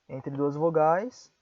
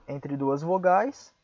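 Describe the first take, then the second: Both takes have the same delivery.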